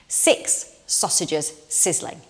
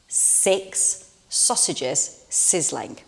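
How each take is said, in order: First: It is said at a faster pace. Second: It is said at a slower pace.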